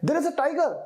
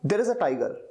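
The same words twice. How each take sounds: First: It is said with fear, warning people. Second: It is said as a calm, simple statement.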